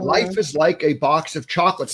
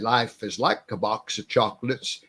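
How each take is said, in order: First: It is said in his own normal voice. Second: It is said imitating Forrest Gump's voice.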